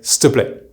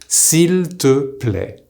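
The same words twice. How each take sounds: First: The 'il' vowel is dropped entirely. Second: The 'il' vowel is fully pronounced. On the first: "the il completely disappears" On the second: "The correct way to say please using tu"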